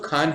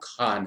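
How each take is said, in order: First: The first sound is an aspirated k stop. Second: The first sound is a fricative kh. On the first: It means a mine. "इसके लिए हमने क और ह का इस्तेमाल किया" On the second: It is a family name. "Shahrukh खान का सरनेम है"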